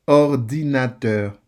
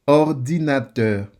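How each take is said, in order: The two takes are said the same way.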